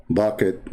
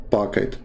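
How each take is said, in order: First: "bucket" said with a B sound, mocking the critic; the claimed mispronunciation, "bucket" with B; wrong take of pocket. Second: "pocket" said slowly with a clear P; slowly and carefully, "pocket" with a P; the correct form, "pocket" with a clear P; right take of pocket. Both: Shown as a demonstration. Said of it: "not pocket".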